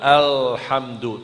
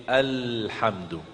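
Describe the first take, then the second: First: Alhamdu said slowly with the l tongue curled up; the Indonesian-style alhamdu; wrong lam. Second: Alhamdu with the l tongue tip forward; the Quranic light lam in alhamdu; correct lam. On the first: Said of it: "jangan alhamdu". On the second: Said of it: "tapi alhamdu". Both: Shown as a demonstration.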